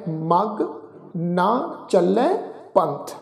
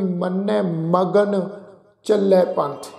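First: ਮਗ said alone, then ਨਾ as a separate word, slowly; slow demo of the right reading ਮਗ ਨਾ; correct pronunciation. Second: ਮਗਨ run together as one word magan, slowly; slow demo of the wrong reading ਮਗਨ; wrong pronunciation. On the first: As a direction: split ਮਗ from ਨਾ clearly. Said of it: "ਇਹ ਸ਼ਬਦ ਜਿਹੜਾ ਹੈ". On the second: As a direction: demonstrate the mistake, joining ਮਗ and ਨ. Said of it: "ਇੰਝ ਉਚਾਰਨ ਨਹੀਂ ਕਰਾਂਗੇ". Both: Shown as a demonstration.

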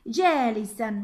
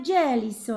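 First: جالسا said "jaalisan", ending in -an; tanween fath ending. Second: جالس drawn out as "jaalisun"; tanween damm ending. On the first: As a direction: sound a clear -an ending on جالسا. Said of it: "إلى تنوين فتح". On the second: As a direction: slowly sound the -un ending of جالس. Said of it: "تنوين الضم في كلمة جالس". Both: Shown as a demonstration.

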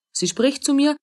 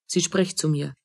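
First: Higher, in disbelief; astonished, voice lifting high; amazed repeat. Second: Half to herself, much softer; a quiet stunned aside; low and hushed realization; soft, dropped murmur. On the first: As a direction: pitch jumps up in wonder. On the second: Realizes she is spoken to. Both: Acted.

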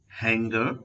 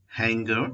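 No difference in how they are said.

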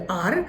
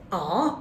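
First: "আর" with the final r sounded; Bangladeshi R. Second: British "আ", long ah with no r; silent-r British "আ". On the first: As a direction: say R as Bengali "আর", r tapped at the end. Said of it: "যেটাকে আমরা বাংলাদেশে বলি আর". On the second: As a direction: say R the British way, open "আ". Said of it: "এটা হচ্ছে British অ্যাকস". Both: Shown as a demonstration.

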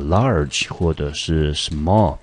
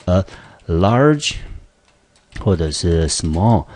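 First: "large" and "small" drawn out slowly; slow model words. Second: Slow emphatic model. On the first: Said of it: "类似的形容词". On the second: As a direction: punch "large", then stretch out "small". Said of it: "来，也是一样的". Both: Shown as a demonstration.

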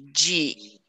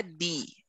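First: "di" said "jee"; D softened to J. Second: "di" said "dee", pure D; hard D. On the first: Teacher shows the Brazilian sound, "di" as "jee". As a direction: say "di" like the start of jeep. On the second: Teacher shows what to avoid, "di" as "dee". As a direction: keep "di" free of any J sound. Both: Shown as a demonstration. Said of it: "Então não é di".

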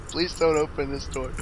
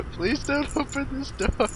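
First: Said in the usual way. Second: Higher, pleading; begging in fear; desperate high plea. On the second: Real, not acted. Hiding from janitor, pleading.

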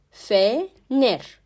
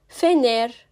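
First: "Fener" split into Fe, pause, ner; syllable-by-syllable pronunciation. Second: Said in the usual way. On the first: Shown as a demonstration. Teacher showing the letter F in "Fener", syllable by syllable. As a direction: leave a gap between the syllables of "Fener". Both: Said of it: "F harfi".

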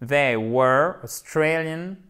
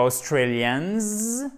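First: Slow "they were Australian", no final s; correct invariable adjective. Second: "Australians" with a drawn-out z ending; wrong final S. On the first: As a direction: end "Australian" cleanly on the n. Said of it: "L'adjectif est toujours invariable". (« Australian » sans s final, articulé lentement) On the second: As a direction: overdo the buzzing s at the end of "Australians". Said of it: "ne me mettez pas un S". (« Australians » fautif, avec s final appuyé) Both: Shown as a demonstration.

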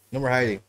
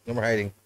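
The two takes are said the same way.

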